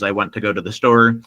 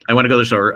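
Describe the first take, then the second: First: It is said at a normal speed. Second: It is said very fast.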